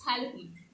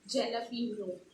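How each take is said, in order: First: It begins with an H sound. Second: It begins with a J sound. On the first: The speaker calls it right. "you pronounce J A as H A. So it's jalapeno" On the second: The speaker calls it wrong. "most of us commonly pronounce it as jalapeno"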